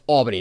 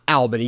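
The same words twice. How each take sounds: First: The first syllable sounds like 'all'. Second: The first syllable sounds like 'al' in pal. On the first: The speaker calls it right. "it's pronounced Albany" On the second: The speaker calls it wrong. "not Albany"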